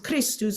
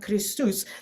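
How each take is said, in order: First: The stress is on the first syllable. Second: The stress is on the second syllable. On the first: This is the normal word stress. The speaker calls it right. "we know the word is Christus" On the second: The stress follows the musical downbeat. The speaker calls it wrong. "or not Christus"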